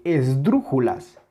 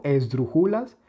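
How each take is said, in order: First: Esdrújulas with a strong beat on DRU; stress on tonic syllable. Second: Esdrújulas said as esdru-JU-las; stress removed. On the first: (esdrújulas con intensidad en DRÚ) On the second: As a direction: put the weight of esdrújulas on JU, not DRU. (esdrújulas acentuado en JU, como esdrujúlas) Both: Shown as a demonstration. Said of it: "No es lo mismo".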